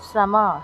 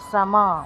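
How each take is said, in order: Both takes have the same delivery.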